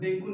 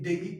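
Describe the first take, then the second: First: The word ends in an 'oo' sound. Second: The word ends in an 'ee' sound. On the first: The speaker calls it wrong. "डेंगू नहीं" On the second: The speaker calls it right. "डेंगी बोलिए"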